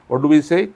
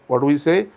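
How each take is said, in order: No difference in how they are said.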